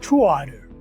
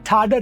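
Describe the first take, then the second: First: The vowel of 'to' is kept before the next word. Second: The vowel of 'to' is dropped and merged. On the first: The speaker calls it right. "फिर उसमें ओ बोला जाएगा" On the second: The speaker calls it wrong. "ठाडर नहीं बोलेगा"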